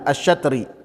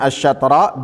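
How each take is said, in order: First: The word ends with an i vowel. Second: The word ends with an a vowel. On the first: "bisa dibacanya asyatri" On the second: "Bisa dibacanya asyatra"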